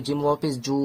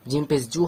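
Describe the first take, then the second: First: জু with a long, held u; elongated vowel. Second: জু with a short, unstretched u; short vowel. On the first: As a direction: stretch out the vowel in জু. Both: Shown as a demonstration. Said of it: "টান হয়".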